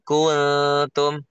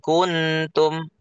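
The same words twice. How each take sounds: First: The n sound is hidden and nasalized. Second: The n sound is pronounced clearly. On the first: The speaker calls it right. "ini masih samar ya" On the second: The speaker calls it wrong. "jangan diperjelas"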